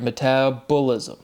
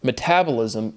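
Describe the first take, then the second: First: "Metabolism" with a full "bo" syllable; slow "Metabolism", leaning on the "bo"; emphasized syllable. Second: Said in the usual way. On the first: Shown as a demonstration. Speaker demonstrating which syllable is being emphasized, emphasized syllable. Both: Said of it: "that's a syllable you're emphasizing".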